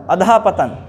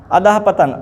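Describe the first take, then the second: No difference in how they are said.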